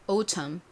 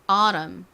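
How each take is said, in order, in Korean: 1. 영국식 억양으로 발음됩니다. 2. 미국식 억양으로 발음됩니다. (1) "영국식으로는" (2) "미국식으로는"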